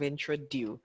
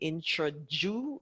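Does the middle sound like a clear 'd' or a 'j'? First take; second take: clear d; j. First: The 'du' part is said with a clear 'd'. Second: The 'du' part is blurred into a 'ju' sound. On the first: The speaker calls it right. "instead of introduce" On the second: The speaker calls it wrong. "we end up saying introdu"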